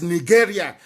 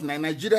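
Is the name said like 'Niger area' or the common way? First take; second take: Niger area; common way. First: Said like 'Niger area', keeping the first part. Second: Said the common way, with the parts blended. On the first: The speaker calls it right. "that's the proper pronunciation" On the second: The speaker calls it wrong.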